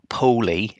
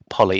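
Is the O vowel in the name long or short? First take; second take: long; short. First: The O vowel is long. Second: The O vowel is short. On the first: The speaker calls it wrong. "it's not Poli" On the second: The speaker calls it right. "it's Polly, it's a short O"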